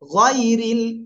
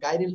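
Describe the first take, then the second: First: The first vowel sounds like 'oy'. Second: The first vowel sounds like 'ai'. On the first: The speaker calls it right. "গয় গাই না" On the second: The speaker calls it wrong. "গাইরিল হবে না"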